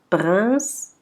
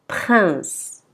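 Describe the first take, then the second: First: The P and R are pronounced apart. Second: The P and R are blended together. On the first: The speaker calls it wrong. "Nous n'allons pas dire prince, non c'est faux" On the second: The speaker calls it right. "Il faut dire prince"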